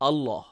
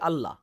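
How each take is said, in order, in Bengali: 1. Double L উচ্চারিত হয় ভারী ও পূর্ণভাবে। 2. ডাবল L উচ্চারিত হয় হালকা ও পাতলাভাবে। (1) "আমরা ভারী উচ্চারণ করি" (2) "হালকা উচ্চারণে"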